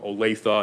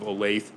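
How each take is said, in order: First: It is said the local way. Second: It is said the outsider way. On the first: The speaker calls it right. "Olathe instead of Olathe" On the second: The speaker calls it wrong. "instead of Olathe"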